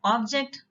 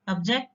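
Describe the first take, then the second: First: OB-ject, stressed on the first syllable; "Object" with a full O up front. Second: Ob-JECT, stressed on the second syllable; "object" with a weak first vowel, lower pitch. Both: Shown as a demonstration. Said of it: "Pronunciation might be slightly different".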